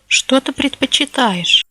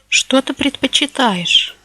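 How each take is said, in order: Both takes have the same delivery.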